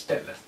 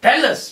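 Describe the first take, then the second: First: Much softer repeated plea; soft echo. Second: Higher, louder plea; pleading request. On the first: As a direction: let it fade to a near whisper. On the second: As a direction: ask it out loud and eagerly. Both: Acted. The two ask Krishna.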